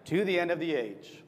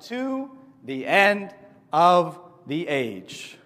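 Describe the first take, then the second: First: Said in the usual way. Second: Very slow, louder announced title; drawn-out title. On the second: Shown as a demonstration. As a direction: stretch every word of the title. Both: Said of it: "Title of today's lesson".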